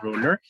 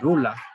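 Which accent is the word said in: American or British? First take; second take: American; British. First: It is said in an American English accent. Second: It is said in a British English accent. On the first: "en inglés americano ruler" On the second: "los británicos dicen rula"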